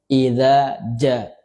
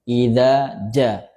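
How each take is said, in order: No difference in how they are said.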